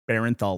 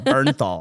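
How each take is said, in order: First: The first syllable sounds like 'bare'. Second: The first syllable sounds like 'burn'. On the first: The speaker calls it wrong. "I'm not supposed to say Barenthal, like Berenstain Bears" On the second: The speaker calls it right. "So Bernthal"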